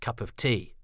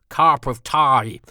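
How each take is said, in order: First: It is said in the speaker's ordinary accent. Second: It is said in a clumsy mock American accent.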